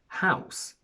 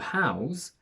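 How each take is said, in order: First: The final sound is a voiceless s. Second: The final sound is a voiced z. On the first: It is a noun. "if it's a noun or an adjective, we use the voiceless S" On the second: It is a verb. "if it's a verb, we use a voiced Z"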